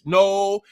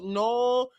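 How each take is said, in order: First: It is said in a plain English accent. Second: It is said in a Spanish accent. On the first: "You can say it in English"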